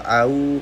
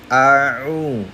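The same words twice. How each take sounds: First: The first vowel is plain, without throat pressure. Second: The first vowel is pressed from the middle throat. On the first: The speaker calls it wrong. "Hati-hati jangan sampai" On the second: The speaker calls it right. "agak ditekan sedikit di tenggorokan tengah"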